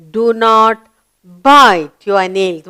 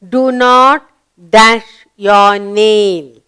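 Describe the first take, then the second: First: Slow reading with stress on bite; slow model reading. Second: Slow reading with a blank. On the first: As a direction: draw out the finished sentence for the class. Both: Shown as a demonstration.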